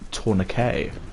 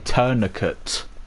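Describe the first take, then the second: First: It is pronounced in a French-sounding way. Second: It is pronounced in an English-sounding way. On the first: This is how the speaker's own country says it. "words in English that we say kind of French" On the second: This is how Americans say it. "you would say tourniquet"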